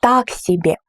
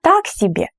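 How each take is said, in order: First: Так strong, себе falling; stress on Так. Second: Так high and strong, себе falling; stress on Так. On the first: Teacher repeating stress on Так. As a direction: lean on Так. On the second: Tasting disappointing buckwheat, stress on Так. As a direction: lift Так above себе. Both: Shown as a demonstration. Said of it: "the first word is more emphasized".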